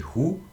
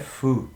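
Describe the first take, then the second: First: The syllable starts with an h sound. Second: The syllable starts with an f sound. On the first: "ao invés de Ru" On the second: "o som é Fu, com um F"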